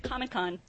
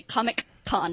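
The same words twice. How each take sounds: First: Said in the usual way. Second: Imitating a pronunciation, "Comic Con" split into two words; Dewey. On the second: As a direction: say "Comic Con" with a deliberate gap before "Con". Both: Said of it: "Or as Dewey likes to say".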